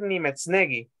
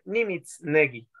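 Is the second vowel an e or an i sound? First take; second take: e; i. First: The second vowel is an e sound. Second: The second vowel is an i sound. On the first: This is the usual pronunciation. "Ella no va a decir Nimetznegi" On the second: This is one speaker's personal pronunciation. "le va a decir Nimitznegi"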